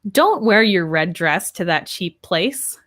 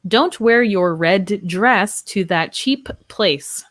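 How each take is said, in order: First: Neighbouring words are linked together. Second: Each word is said separately. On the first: "I'm going to say it using the linked sounds" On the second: "if I did not use linked sounds and said"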